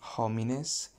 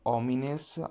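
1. La parola inizia con un suono di h udibile. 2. La parola inizia direttamente con la vocale, senza h. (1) "I don't say homines" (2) "the same rule is for homines"

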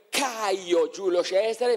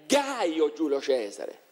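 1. Il primo nome inizia con un suono K. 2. Il primo nome inizia con un suono G. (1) "si scrive Caio Giulio Cesare" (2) "ma è Gaio Giulio Cesare"

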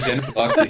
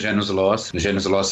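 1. A consoante em 'loci' é um som de k. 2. A consoante em 'loci' é um som de s. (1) "A pronúncia correta em latim é Janus Locke" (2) "Está muito mais para o Janus Loss renascentista"

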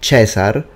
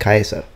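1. ชื่อนี้ขึ้นต้นด้วยเสียง ch 2. ชื่อนี้ขึ้นต้นด้วยเสียง k แข็ง (1) "the ecclesiastical pronunciation" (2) "they said Caesar, most likely"

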